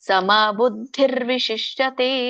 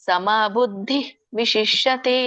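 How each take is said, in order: First: The words are run together with an r sound. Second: The words are said separately with a break. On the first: "ಕೂಡಿ ಹೇಳ್ತೇನೆ ಮೊದ್ಲು" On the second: "ಇನ್ನು ಬಿಡ್ಸೋದಾದ್ರೆ"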